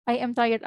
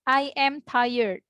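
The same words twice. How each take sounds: First: Said in the usual way. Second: Very slow teacher demo of "I am tired"; drawn-out classroom example; slow model sentence. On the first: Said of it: "repeat at normal pace". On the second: Shown as a demonstration. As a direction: stretch each word for learners. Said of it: "teacher models sentence".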